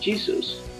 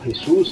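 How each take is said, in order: First: The name is pronounced the English way. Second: The name is pronounced the Spanish way. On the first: "pronunciación en inglés" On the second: "en español"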